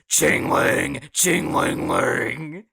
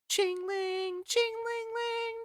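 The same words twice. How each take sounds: First: It is said in a deep, demonic voice. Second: It is said in a cute, high-pitched voice. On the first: "bass boosted the way it just goes like a demon voice" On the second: "in their little cute high pitched voice"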